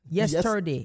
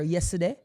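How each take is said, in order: First: Every sound is said fully and slowly. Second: The word is said quickly with reduced sounds. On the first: This is how Westmoreland speakers say it. "you pronounce every word in a yesterday" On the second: Westmoreland speakers never say it this way. "you'll never hear yesterday from a yo, a Westmoreland person"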